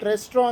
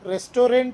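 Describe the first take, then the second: First: The middle syllable is squeezed out. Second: The middle syllable is fully pronounced. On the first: The speaker calls it right. "ರೆಸ್ಟ್ರೋ ಅಂದರೆ ಸರಿಯಾದ ಉಚ್ಚಾರಣೆ" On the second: The speaker calls it wrong. "ರೆಸ್ಟೋರೆಂಟ್ ಅನ್ಬೋದು ನೀವು"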